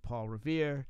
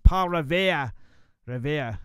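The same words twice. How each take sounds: First: Said in the usual way. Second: Loud mock Boston accent, dropping the R; lousy Boston accent. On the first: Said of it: "or as they say in Boston". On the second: Shown as a demonstration. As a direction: belt out "Revere" in a bad Boston accent. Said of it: "I do a lousy Boston accent".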